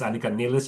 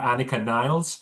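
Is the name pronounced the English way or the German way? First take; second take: German; English. First: The name is given a German-style pronunciation. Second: The name is given an English-style pronunciation. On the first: The speaker calls it right. "Obviously, it's Annika Niles" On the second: The speaker calls it wrong. "everyone's calling her Annika Niles, and that's not correct"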